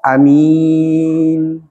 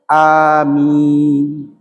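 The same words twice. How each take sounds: First: The first vowel is kept short. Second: The first vowel is held long. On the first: Grant it, O God. "itu amin pendek" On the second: Answer, O God, what we ask. "itu panjang"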